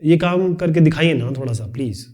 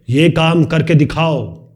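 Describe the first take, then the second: First: Polite request. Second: Slow, firm command with ये hit hard; commanding order. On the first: Teacher demonstrating a polite request after a bossy order. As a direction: ask nicely, almost pleading. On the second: Teacher demonstrating a bossy instruction to a student. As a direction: order it, drawing out each word. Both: Shown as a demonstration. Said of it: "ये अलग तरीका हो गया".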